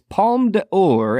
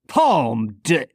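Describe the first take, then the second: First: The term is said with an English-style accent. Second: The term is said with a French-style accent. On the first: The speaker calls it wrong. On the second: The speaker calls it right.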